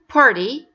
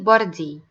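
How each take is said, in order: First: The middle consonant is a very light D. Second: The middle consonant is a heavy D. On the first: The speaker calls it right. "it's a very light D" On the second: The speaker calls it wrong. "It's not a heavy D"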